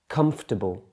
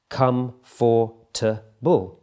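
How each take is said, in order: First: The word is said with three syllables. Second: The word is said with four separate syllables. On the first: "In spoken English, that gets reduced to three syllables" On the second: "This is a four-syllable word when it's written down"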